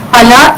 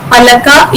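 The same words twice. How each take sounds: First: Pala with the ka dropped; Kartanadan dialect form. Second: Palaka with final ka sounded; standard Malayalam form. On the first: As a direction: cut the word to two syllables, pala. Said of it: "the syllable ka gets deleted". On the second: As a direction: say palaka in three syllables. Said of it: "standard Malayalam becomes". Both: Shown as a demonstration.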